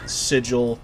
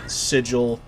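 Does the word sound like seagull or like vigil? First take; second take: vigil; vigil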